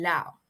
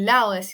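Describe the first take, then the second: First: The middle consonant is left out entirely. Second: The middle consonant is clearly pronounced. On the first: "se da la elisión de oclusivas sonoras intervocálicas" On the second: "en lugar de decir lao"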